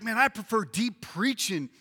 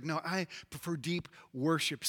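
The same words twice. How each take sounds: First: Lightly acted keen church member; emphatic preference. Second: Low, soft, earnest counterclaim; hushed devout preference. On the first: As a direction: declare the preference firmly, in full voice. First of two opposed preferences. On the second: Acted. Preacher mimics worship lover answering, hushed and devout.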